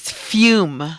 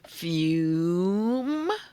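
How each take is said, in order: First: The word is said at normal speed. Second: The word is drawn out slowly, sounds stretched.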